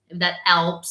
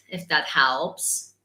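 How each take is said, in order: First: Italian accent, "helps" said without its H; "helps" starting straight on the vowel, Italian-style; dropped H. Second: Italian accent with the H in "helps" still sounded; slow Italian accent, lower, "helps" keeping its H; put-on Italian, pronouncing the H of "helps". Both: Shown as a demonstration. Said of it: "because H's are difficult".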